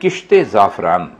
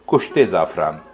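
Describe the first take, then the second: First: The first word has an 'i' vowel after 'k'. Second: The first word has a 'u' vowel after 'k'. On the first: The speaker calls it right. "लफ्ज है किश्ते जाफरान" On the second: The speaker calls it wrong. "हमारे लोग इसे बोलते हैं कुश्ते जाफरान। ये गलत है।"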